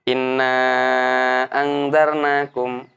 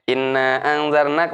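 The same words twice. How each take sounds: First: The long vowel is drawn out for long. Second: The long vowel is held only briefly. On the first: This follows the locally recommended reading tradition. "kita bacanya enam ya" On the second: This follows the Meccan reading tradition. "cuma dua tok ... enggak panjang"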